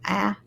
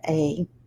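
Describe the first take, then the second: First: The vowel is the short a sound. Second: The vowel is the long a sound. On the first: "The E makes the A change from A" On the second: "to A"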